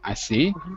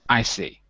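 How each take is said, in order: First: The pitch rises at the end. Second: The pitch falls at the end. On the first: "can be used with a rising or falling tone" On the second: "as a falling tone"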